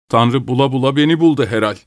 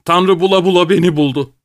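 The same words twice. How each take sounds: First: Drained, resigned lament; lifeless. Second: High-pitched, aggrieved lament; anguished complaint. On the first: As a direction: say it listlessly, with no fight left. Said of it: "dedi cansız cansız". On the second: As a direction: complain in a raised pitch, feeling singled out. Acted outburst of bitter husband. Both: A narrator's reading.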